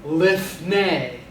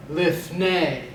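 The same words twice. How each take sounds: First: Lifnei said slowly, stress on the last syllable nei; lifnei, final syllable stressed, falling close; Hebrew pronunciation. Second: Lifnei repeated, accent on the last syllable nei; lifnei, falling on the stressed nei; Hebrew pronunciation. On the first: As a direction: sound out lifnei with the accent on nei. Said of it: "So that word would be". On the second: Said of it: "And you want to accent the last syllable". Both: Shown as a demonstration.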